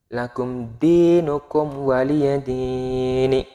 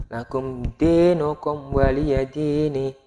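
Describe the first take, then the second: No difference in how they are said.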